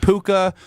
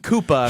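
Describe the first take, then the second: First: The name begins with a P sound. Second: The name begins with a K sound. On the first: The speaker calls it right. "Did I say it right?" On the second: The speaker calls it wrong. "I've been calling him Koopa"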